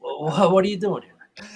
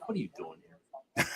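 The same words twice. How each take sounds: First: Higher, louder incredulous question; mock disbelief. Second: Low, softer private wondering under his breath; thinking to himself. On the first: Retelling seeing rival fans nearby, hammed-up incredulous question. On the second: Retold or imitated. Watching rival fans in his section, quietly thinking to himself. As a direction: mutter it as an inner thought. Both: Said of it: "I'm just thinking to myself".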